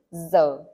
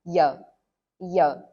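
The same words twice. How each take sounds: First: Giờ with a z-like start and low falling tone, slowly; northern giờ. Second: Giờ with a y-like start and low falling tone; southern giờ. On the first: Teacher contrasts northern giờ with the southern one, slow and clear. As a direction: say giờ the Hanoi way, z sound first. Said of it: "In the north, we say giờ". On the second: Teacher contrasts southern giờ with the northern one, louder. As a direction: say giờ the Saigon way, y sound first. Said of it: "but in the south, we say". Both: Shown as a demonstration.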